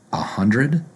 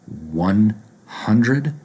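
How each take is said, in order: First: "a hundred" run together, rising; reduced form. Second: "one hundred" as two separate, stressed words, rising; full "one hundred". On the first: Teacher showing what people say, reduced article. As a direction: swap "one" for a quick "uh" before "hundred". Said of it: "people might say a hundred". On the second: Teacher showing the fuller form, separated words. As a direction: give "one" full weight before "hundred". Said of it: "Instead of saying one hundred". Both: Shown as a demonstration.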